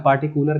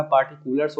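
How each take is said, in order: First: पार्टिकुलर said ending on r, no s; wrong singular form. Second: पार्टिकुलर्स said with a final s after the r; correct plural form. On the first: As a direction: say पार्टिकुलर bare as the mistake. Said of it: "पार्टिकुलर कभी नहीं होता". (पार्टिकुलर बिना S, गलत रूप) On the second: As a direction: finish पार्टिकुलर्स on a clear s. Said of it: "पार्टिकुलर्स होता है". (पार्टिकुलर्स S के साथ, सही रूप) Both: Shown as a demonstration.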